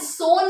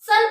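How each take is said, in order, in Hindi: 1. स्वर 'oh' जैसा सुनाई देता है। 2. स्वर 'uh' जैसा सुनाई देता है। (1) "सोन नहीं पढ़ रही मैं" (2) "यहाँ सन पढ़ रही हूँ"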